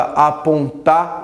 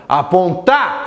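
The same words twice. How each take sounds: First: Said in the usual way. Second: "Apontar" called out, pushing the final "tar" upward; mock gate call. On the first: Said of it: "Pega a palavra apontar". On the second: Shown as a demonstration. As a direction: call "Apontar" as if at a gate, stressing the last syllable. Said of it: "grite no portão". (chamar "Apontar" no portão, com força na última sílaba)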